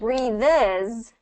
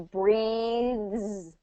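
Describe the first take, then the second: First: The word ends with an extra 'iz' syllable. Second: The word is one syllable ending in 'thz'. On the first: The speaker calls it wrong. "You're not going to put the is at the end" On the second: The speaker calls it right. "It's just going to be breathes"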